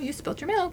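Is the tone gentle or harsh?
gentle. It is said in a calm, gentle tone.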